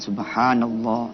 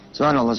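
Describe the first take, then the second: First: It is said slowly and savored. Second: It is rattled off very fast.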